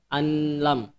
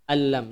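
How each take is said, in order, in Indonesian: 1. Nun dilafalkan terpisah sebelum l. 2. Nun bergabung menjadi l yang ganda, tanpa dengung sengau. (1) "bukan dibaca anlam" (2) "tidak didengungkan"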